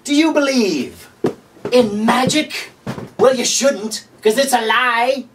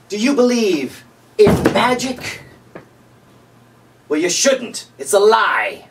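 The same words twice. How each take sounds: First: Higher, hammed-up pitchman voice with a slow question; infomercial pitchman. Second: Lightly hammed-up pitchman asking a slow teasing question; a hint of a TV salesman, slow on the question; infomercial pitchman. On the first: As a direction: play the cheesy TV salesman all the way. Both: Late night infomercial riff.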